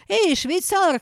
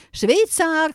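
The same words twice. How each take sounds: First: Calling out. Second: Louder insistent call to the doorman; calling again. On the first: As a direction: shout toward the back door. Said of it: "крикнула она". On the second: Hen calls the absent doorman a second time, louder. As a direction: call out once more, harder. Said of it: "крикнула она ещё раз". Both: A narrator's reading.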